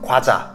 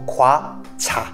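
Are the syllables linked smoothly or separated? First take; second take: linked; separated. First: The syllables are said quickly and smoothly linked. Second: The syllables are said slowly and separately. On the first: "il faut que ce soit un peu plus rapide et bien faire la liaison" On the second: "Plus simple de le prononcer mot à mot"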